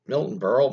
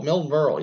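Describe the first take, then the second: First: Rising tune on Berle, asking himself; testing the name out with a questioning lilt; unsure question. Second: Firm falling tune on Milton; landing the name with certainty; confirming. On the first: Unsure which comedian, he asks himself the name. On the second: Having recalled the comedian, he confirms the name with a settled fall. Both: Real, not acted.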